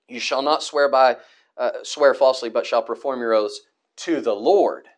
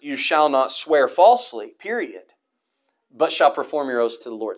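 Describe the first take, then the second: First: The stress falls on "Lord" at the end. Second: The stress falls on "falsely", then a stop.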